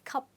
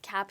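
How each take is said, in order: First: The vowel is the short 'u' of cup. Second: The vowel is the open 'a' of cap. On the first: The speaker calls it right. "It's pronounced as cup" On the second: The speaker calls it wrong. "is actually not pronounced as cap here"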